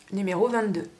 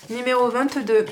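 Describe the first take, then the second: First: Said in the usual way. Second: Annonce forte du lot. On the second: Real, not acted.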